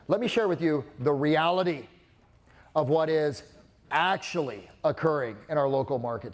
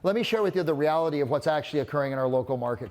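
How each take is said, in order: First: Strong falling emphasis lands on 'reality' and 'actually'. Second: The whole sentence is said flatly without emphasis. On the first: The speaker calls it right. "with my tone, says, I know what you think is reality, but here's the truth" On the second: The speaker calls it wrong. "Just sounds like blah"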